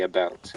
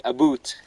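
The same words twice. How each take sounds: First: About said with an ou as in out; about, American ou sound. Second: About said as a boot, with an oo vowel; a boot with an oo vowel, Canadian style. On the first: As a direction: say about plainly, with an ou diphthong. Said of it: "Canadians say". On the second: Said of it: "They say". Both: Shown as a demonstration.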